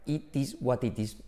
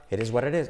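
First: Slow "It is what it is" with hard Ts, Spanish accent; Spanish-accented English. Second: "it is what it is" said "eresuarerés"; linked as one word. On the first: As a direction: wooden word-by-word Spanish-learner "It is what it is". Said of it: "No puedes decir". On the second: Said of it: "como si fuera una sola palabra". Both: Shown as a demonstration.

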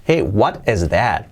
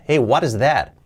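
First: Said in the usual way. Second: "what is" linked by a light R-like flap; T as soft R. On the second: Shown as a demonstration. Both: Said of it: "la T como una R suave".

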